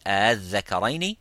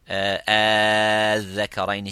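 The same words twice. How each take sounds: First: The opening is eased, between hamza and alif. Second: The opening vowel is stretched long, six counts. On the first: "the second one, tasheel" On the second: "the first one, al-Zakaraini, six counts"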